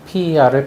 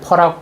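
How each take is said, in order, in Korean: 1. 세 글자로 풀어서 읽습니다. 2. 한 음절로 읽습니다.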